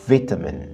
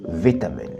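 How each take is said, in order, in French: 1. La première syllabe se prononce comme « vit ». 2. La première syllabe se prononce comme « vit ».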